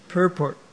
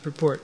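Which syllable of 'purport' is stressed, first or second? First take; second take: first; second. First: The stress is on the first syllable. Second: The stress is on the second syllable. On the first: The speaker calls it right. "it is stressed on the first syllable" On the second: The speaker calls it wrong. "Here's a misconception"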